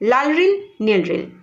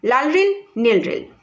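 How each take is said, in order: No difference in how they are said.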